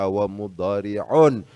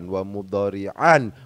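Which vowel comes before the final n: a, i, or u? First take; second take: u; a. First: The word ends with the sound -un. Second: The word ends with the sound -an. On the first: The word is in the nominative case. The speaker calls it right. "bacaannya wa mudhari'un" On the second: The word is in the accusative case. The speaker calls it wrong. "bukan wa mudhari'an"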